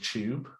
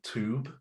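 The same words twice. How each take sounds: First: It is said with a British accent. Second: It is said with an American accent. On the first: "instead of" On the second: "an American came to his school... he said tube"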